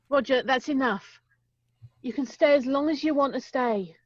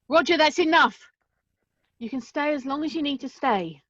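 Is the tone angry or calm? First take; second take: calm; angry. First: It is said calmly and nicely. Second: It is shouted angrily.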